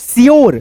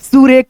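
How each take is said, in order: First: It is said as one syllable, shyoor. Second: It is said as two syllables, soo-reh. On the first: The speaker calls it right. "तो यहाँ पे पढ़ेंगे" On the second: The speaker calls it wrong. "तो ये गलत हो जाएगा"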